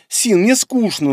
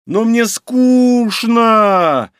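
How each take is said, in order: First: Higher, slow whiny complaint; whining. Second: Loud, high, very slow drawn-out moan; moaning whine.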